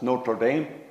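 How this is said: It is said with an anglicized pronunciation. "even the way we pronounce it, it's barbaric by French standards"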